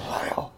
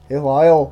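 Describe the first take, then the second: First: Soft whispered attempt at a Scottish accent. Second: Loud attempt at a Scottish whisper; failed Scottish whisper. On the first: Second try at whispering in co-host's ear, Scottish whisper. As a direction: whisper it like a Scotsman. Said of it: "You can't whisper in a Scottish accent". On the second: Imagining a Scotsman whispering in co-host's ear, failed Scottish whisper. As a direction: botch a Scottish whisper by voicing it loudly. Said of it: "That's not whispering".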